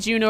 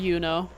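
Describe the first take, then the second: First: The name begins with a J sound. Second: The name begins with a Y sound. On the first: "So I could say Juno or Yuno" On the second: "So I could say Juno or Yuno"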